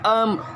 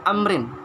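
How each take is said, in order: First: The word stops short without the final vowel. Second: The word ends with a full vowel and n. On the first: This is how it is recited when pausing. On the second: This is how it is written.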